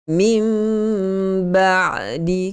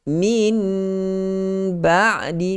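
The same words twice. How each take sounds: First: The first word ends with an m sound. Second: The first word ends with an n sound. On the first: The speaker calls it right. "sebab tu kita baca min ba'di" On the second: The speaker calls it wrong. "Kita tak baca min ba'di"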